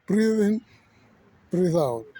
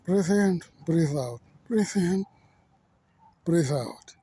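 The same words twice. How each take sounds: First: Urging himself to get his breath back; pushed breathing cue. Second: Saying breathe in, breathe out to settle himself; steady self-coaching through the breaths; calming breaths. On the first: Out of breath mid-talk, coaching himself louder. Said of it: "I could not take my breath". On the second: A speaker steadying himself mid-talk, calm breathing cues. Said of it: "Let me take my breath". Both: Real, not acted.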